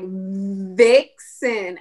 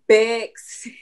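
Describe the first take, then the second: First: Every sound is over-enunciated very clearly. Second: Some sounds are swapped for easier childlike ones. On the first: The speaker calls it right. "I'll just overly over enunciate everything" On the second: The speaker calls it wrong. "he'll still get it wrong"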